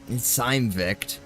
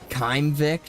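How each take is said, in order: First: The name begins with an S sound. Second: The name begins with a K sound.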